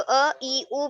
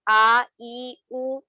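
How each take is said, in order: First: ا، ای، او each as a brief vowel; short "uh, i, u" for ا، ای، او; short unstretched vowels. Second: آ، ای، او each drawn out; long "aah, eee, ooo" for آ، ای، او; stretched long vowels. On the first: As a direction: say ا، ای، او quickly, without drawing out. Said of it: "کھینچا نہیں جائے گا". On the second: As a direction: hold آ، ای، او long, as the mistake. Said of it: "نہیں پڑھیں گے". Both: Shown as a demonstration.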